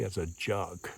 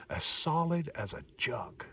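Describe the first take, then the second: First: Said in the usual way. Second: Put-on light old-timer voice, a touch higher and softer; old-timer saying. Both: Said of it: "as the old timers used to say".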